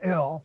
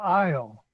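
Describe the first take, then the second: First: The vowel sounds like 'ee' or 'ih'. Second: The vowel sounds like 'eye'. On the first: The speaker calls it wrong. "not Ill" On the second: The speaker calls it right. "it's Belle Isle"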